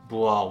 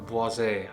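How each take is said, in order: First: The final S is silent. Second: The final S is sounded. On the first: The speaker calls it right. "the right pronunciation is Bois with a silent S" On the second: The speaker calls it wrong. "or Boisé"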